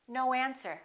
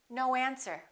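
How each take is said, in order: First: The words are linked with a w sound. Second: The same.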